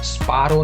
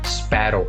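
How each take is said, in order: First: The first vowel is an open 'aa' sound. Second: The first vowel is a flatter 'ae' sound. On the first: The speaker calls it wrong. "स्पारो नहीं है वो" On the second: The speaker calls it right.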